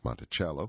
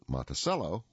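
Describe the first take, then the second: First: The word has an Italian pronunciation. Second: The word has an American pronunciation. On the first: "which is Italian for little mountain" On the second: "which is American"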